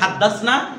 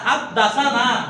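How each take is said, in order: First: No vowel is heard before the final 'na'. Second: An extra 'a' vowel is heard before 'na'. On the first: We narrated. "একটা হচ্ছে হাদ্দাসনা" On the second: He narrated to us. "আর হাদ্দাসানা"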